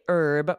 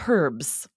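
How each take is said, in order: First: The word starts with a silent H. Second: The word starts with a pronounced H. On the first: This is the American way. "in the U S, we say herb with a silent H" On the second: This is the British way. "in the U K, they pronounce that H"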